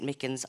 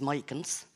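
First: The first syllable sounds like 'mick'. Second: The first syllable sounds like 'my'. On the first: The speaker calls it wrong. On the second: The speaker calls it right.

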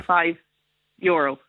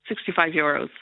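First: It is said at a slower pace. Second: It is said at a quicker pace.

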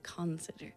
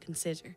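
First: The stress is not on the middle syllable. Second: The stress is on the middle syllable. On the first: The speaker calls it wrong. "We don't say consider" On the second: The speaker calls it right. "it's the middle syllable that would be naturally accented when we say consider"

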